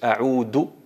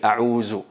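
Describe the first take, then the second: First: The middle consonant is a plain d sound. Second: The middle consonant is a z sound. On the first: "si tú dices a'udu billahi minash shaitanir rajim, ahí alteras totalmente el significado" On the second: "cambian el dal con el zay, a'uzu, y eso es totalmente incorrecto"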